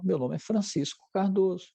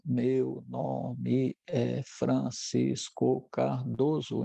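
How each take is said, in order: First: Syllables flow together with natural melody. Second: Each syllable is separate with flat melody. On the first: This is normal speech. "Então tem uma entonação" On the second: This is the scanning speech of a cerebellar disorder. "fazendo separação silábica"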